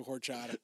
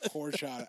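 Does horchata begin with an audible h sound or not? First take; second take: audible h; no h. First: The word starts with a breathy h, like whore. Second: The word starts without an h sound. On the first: The speaker calls it wrong. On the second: The speaker calls it right.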